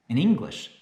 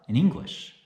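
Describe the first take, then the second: The two takes are said the same way.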